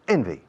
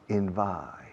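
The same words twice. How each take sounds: First: The stress is on the first syllable. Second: The stress is on the second syllable. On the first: The speaker calls it right. "The first syllable carries all the stress" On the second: The speaker calls it wrong. "some people say envy, and it's impossible to understand"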